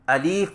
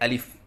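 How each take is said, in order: First: The second vowel is a long i. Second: Both vowels are short and plain. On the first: The speaker calls it wrong. "या से बदल कर पढ़े अलीफ... यह भी गलत है" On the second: The speaker calls it right. "सही अदायगी है अलिफ"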